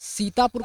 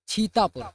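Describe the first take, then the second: First: The word begins with an s sound. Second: The word begins with a ch sound. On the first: This is the standard Hindi form. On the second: This is the Chhattisgarhi form.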